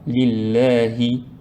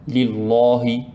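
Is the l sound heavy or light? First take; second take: light; heavy. First: The double l sounds light and thin. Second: The double l sounds heavy and thick. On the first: The speaker calls it right. "on fait at-tarqiq. Donc on le prononce comme ça" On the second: The speaker calls it wrong. "on ne dit pas"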